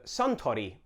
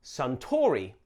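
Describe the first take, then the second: First: Suntory with even syllables, no heavy middle stress; Japanese-style Suntory. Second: Suntory with the stress on TOR, English style; anglicised Suntory. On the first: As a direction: say Suntory close to the Japanese way, SUN-to-ree. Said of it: "much closer to what we say in Japan". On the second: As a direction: lean on the middle syllable of Suntory, sun-TAW-ree. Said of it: "you may naturally say". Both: Shown as a demonstration.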